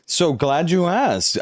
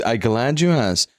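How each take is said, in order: First: Slow, drawn-out and higher, playfully overjoyed; mock delight. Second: Said in the usual way. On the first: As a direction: savour every word like it's the best question ever. Streamer answers chat question.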